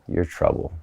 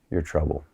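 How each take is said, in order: First: It is said with a pushing, challenging tone. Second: It is said low, deep and seductive. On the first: "There's a little push and a challenge on that" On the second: "drop all the way down to your turn on"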